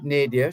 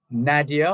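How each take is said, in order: First: Nadia said NAY-dee-uh; first-syllable long a. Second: Nadia said NAD-ee-uh; first-syllable short a. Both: Shown as a demonstration. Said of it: "or is it Nadia".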